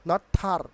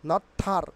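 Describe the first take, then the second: Both takes have the same delivery.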